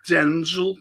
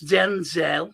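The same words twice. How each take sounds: First: "Denzel" with a short, unstressed second syllable; usual DENZEL. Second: "Denzel" drawn out slowly as den-ZELL; corrected DENZEL. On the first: Quoting someone's correction of the actor's name, "Denzel" said as DEN-zl. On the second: Someone correcting the speaker on the name, "Denzel" slowly said as den-ZELL. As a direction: stretch "Denzel" with a full, stressed ZELL. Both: Retold or imitated. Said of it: "It's not Denzel, it's Denzel".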